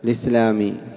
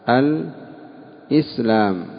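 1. تُحذف الهمزة ويأخذ 'l' الكسرة. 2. تُسمع الهمزة قبل الصوت 'i'. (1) "فيجوز أن تنقل الكسرة للساكن قبلها وتحذف الهمزة فتقول الإسلامي" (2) "همزة إسلام مكسورة وقبلها اللام"

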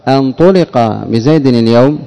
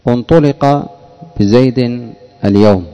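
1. تبدأ الكلمة الأولى بحرف العلة 'a'. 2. تبدأ الكلمة الأولى بحرف العلة 'u'. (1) "تحذف همزة الوصل وتأتي بهمزة الاستفهام" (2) "همزة مضمومة"

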